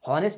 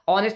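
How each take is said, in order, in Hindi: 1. शब्द एक साफ़ सुनाई देने वाली h ध्वनि से शुरू होता है। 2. शब्द एक सादे स्वर से शुरू होता है। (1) "हॉनेस्ट ये गलत हो जाएगा" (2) "ऑनेस्ट में भी एच साइलेंट है"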